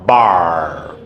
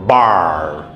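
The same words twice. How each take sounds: First: The vowel is an r-coloured ar sound. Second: The same.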